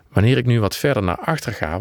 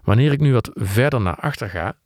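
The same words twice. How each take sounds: First: The voice is softer but still clear. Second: The voice is too faint and dull. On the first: The speaker calls it right. "wordt het geluid zachter en iets anders van klank. Maar het klinkt nog steeds goed" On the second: The speaker calls it wrong. "zakt het geluid eigenlijk helemaal weg. Het wordt te zacht en het wordt te dof"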